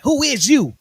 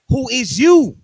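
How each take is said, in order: First: Louder and higher mock threat; menacing rapper. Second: Louder, higher threatening demand; menacing rapper. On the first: Rapper with a gun to the engineer: a mock menacing demand. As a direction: demand it at gunpoint. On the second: Retold or imitated. Rapper pressing the engineer again: a louder threat. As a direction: bark it at the intruder.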